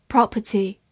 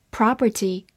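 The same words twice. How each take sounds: First: "Property" British-style with silent middle r; British accent. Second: American "property" with an open ah; American accent. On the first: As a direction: give the British PROP-uh-tee for "Property". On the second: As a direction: say "property" the American way, PRAH-per-tee. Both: Shown as a demonstration. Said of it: "美式发音".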